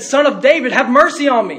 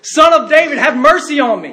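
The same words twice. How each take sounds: First: Raised pleading call, imitating the beggar; crying out. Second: High, loud pleading shout; louder crying out. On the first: Blind beggar calling to Jesus over the crowd, crying out. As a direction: call out for mercy, moderately raised. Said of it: "he began to cry out". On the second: Retold or imitated. Hushed beggar calling harder to Jesus, loud desperate cry. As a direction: cry out at full voice for mercy. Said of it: "he cried out all the more".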